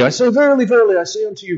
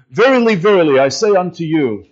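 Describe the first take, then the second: First: Higher, mock-archaic Bible reading; playful mock-solemn King James; hammed-up King James voice. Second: Put-on old King James phrasing. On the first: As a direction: put on grand old Bible English, a little higher. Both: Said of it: "We don't speak like that anymore".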